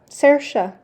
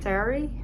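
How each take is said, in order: First: The name ends with a 'sha' sound. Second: The name ends with an 'ee' sound. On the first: The speaker calls it right. "The way to say this is Sersha" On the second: The speaker calls it wrong. "My attempts to pronounce this name were so bad"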